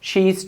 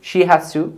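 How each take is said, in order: First: The verb is reduced to a short 'z' sound. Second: The verb is said in full as 'has'.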